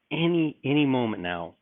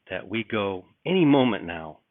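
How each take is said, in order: First: "any" repeated and hit higher; "any, any" pushed up in pitch for urgency; stress on any. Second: Said in the usual way. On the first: Shown as a demonstration. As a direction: lean hard on "any, any".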